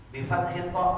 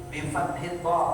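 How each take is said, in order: No difference in how they are said.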